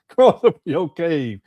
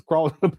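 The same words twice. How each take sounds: First: Slow, laughing through the mocking quote. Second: Said in the usual way. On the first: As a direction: drag it out while cracking up. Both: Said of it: "why you gotta talk like this".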